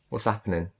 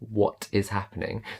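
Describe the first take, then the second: First: What and is merge into one short syllable. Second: What and is are said as separate words. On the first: The speaker calls it right. "I'm I'm merging the what and the is" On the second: The speaker calls it wrong. "Not what is happening"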